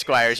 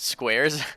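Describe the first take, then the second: First: The vowel is the 'eye' sound, like 'fire'. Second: The vowel is the 'air' sound, like 'square'. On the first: The speaker calls it right. "It is Squires" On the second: The speaker calls it wrong. "You pronounced it Squares"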